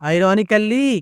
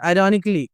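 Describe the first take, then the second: First: The ending is said with an extra 'kal' syllable. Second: The ending is said as a short 'nik-lee'. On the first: The speaker calls it wrong. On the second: The speaker calls it right.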